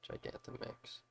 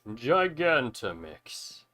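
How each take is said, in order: First: It is said in the speaker's normal voice. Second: It is said in a put-on character voice.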